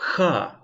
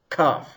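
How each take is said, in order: First: It begins with a soft rasping ch sound. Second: It begins with a hard k sound. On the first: The letter has no dagesh. "without dagesh, ch" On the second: The letter has a dagesh. "B'dagesh, with dagesh. Kaf, k"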